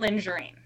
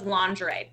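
First: The word ends in an 'een' sound. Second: The word ends in a plain 'ee' sound. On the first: This is how someone else mistakenly said it. The speaker calls it wrong. "but he pronounced it lingerine" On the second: This is the standard pronunciation. The speaker calls it right. "The point was lingerie"

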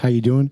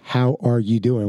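First: The word 'are' is dropped entirely. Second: The word 'are' is pronounced in full. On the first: "We're like" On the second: "we don't say"

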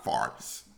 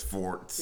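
First: The vowel sounds like 'ar'. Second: The vowel sounds like 'or'. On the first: This is how some other people say it. "not farts" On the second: This is the speaker's own dialect form. "My dialect is forts"

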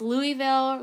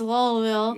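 First: The name is said as it is written. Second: The name is said the slurred local way. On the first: "if you read it, it's Louisville" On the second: "If you live there, it's Lowellville"

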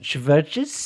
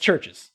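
First: The name is said with a V sound. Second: The name is said without a V sound. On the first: "you can pronounce it Chverches if you want to" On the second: "But it's Churches"

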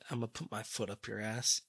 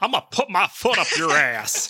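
First: It is said in his natural voice. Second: It is said in a put-on character voice.

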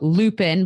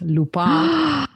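First: The name is said with an American accent. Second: The name is said with a French accent. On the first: The speaker calls it wrong. "most Americans would call it Lupin" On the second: The speaker calls it right. "but it's Lupin"

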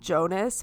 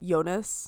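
First: The name begins with a hard J sound. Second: The name begins with a soft Y sound. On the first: This is how an English reader would say it. The speaker calls it wrong. "his name would be pronounced Jonas" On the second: This is how it is said in German. The speaker calls it right. "but it's Jonas"

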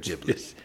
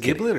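First: It begins with a soft J sound. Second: It begins with a hard G sound. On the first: "or a jif" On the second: "like a gif"

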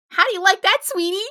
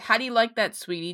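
First: It is read in a put-on high-pitched voice. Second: It is read in a normal speaking voice.

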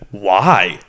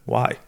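First: It sounds blunt and threatening. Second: It sounds soft and non-threatening.

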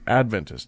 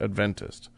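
First: The stress is on the first syllable. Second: The stress is on the second syllable. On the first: The speaker calls it right. "I learned that it's Adventist" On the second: The speaker calls it wrong. "not Adventist"

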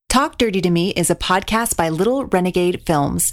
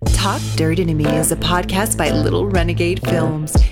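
First: It is read in a plain voice. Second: It is read in a sultry, sexy voice.

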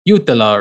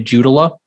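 First: The name is said with a Finnish pronunciation. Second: The name is said with an American pronunciation. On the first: This is the original way of saying the name. "It's a Finnish last name. So I think technically it's supposed to be like Jutila" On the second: This is how the family actually says the name. "because we're Midwestern, we say Jutila"

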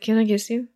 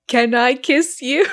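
First: It is mumbled quietly and unclearly. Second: It is said clearly and audibly.

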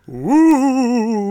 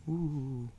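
First: It is said with full, committed energy. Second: It is said weakly, without much energy.

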